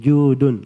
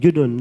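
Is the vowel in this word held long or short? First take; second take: long; short. First: The vowel is lengthened for two beats. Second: The vowel is cut short, not lengthened. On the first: The speaker calls it right. "itu dipanjangkan... Tapi dibaca judun" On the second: The speaker calls it wrong. "Jangan dibaca judun, enggak"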